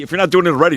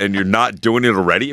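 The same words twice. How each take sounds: First: Exasperated emphasis on "doing"; emphatic repeat. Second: Said in the usual way. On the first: Real, not acted. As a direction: repeat it, hitting "doing" hard.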